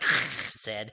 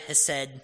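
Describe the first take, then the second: First: The word is said with a Hebrew accent. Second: The word is said with an English accent. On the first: The speaker calls it right. "I'm sure it's supposed to be more like hesed" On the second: The speaker calls it wrong. "I'm sure I'm not saying that with the correct accent"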